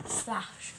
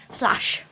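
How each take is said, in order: First: Said in the usual way. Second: Loud, sudden sound-effect word; much louder, mimicking the impact; loud splash imitation. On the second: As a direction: burst out loudly with the crash noise. Acting out the massive crash.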